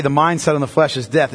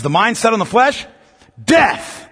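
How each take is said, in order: First: Said in the usual way. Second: "The mind set on the flesh," then a pause and "death." hit much higher; dramatic pause before death. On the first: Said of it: "it doesn't say". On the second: Shown as a demonstration. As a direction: leave out the "is", hold the pause, then slam "death.". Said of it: "It says".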